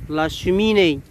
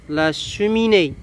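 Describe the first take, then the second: The two takes are said the same way.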